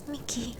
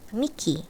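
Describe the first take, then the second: First: Almost silent, very soft; voice failing. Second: Soft, weak and sad; small sad voice. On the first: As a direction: try to speak but no voice comes. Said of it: "but no voice came". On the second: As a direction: say her name shyly, barely there. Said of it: "in a small, sad, weak-sounding voice". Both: A narrator's reading.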